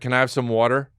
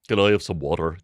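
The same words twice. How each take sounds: First: It is said in a plain boyish voice. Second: It is said in a deep commanding voice.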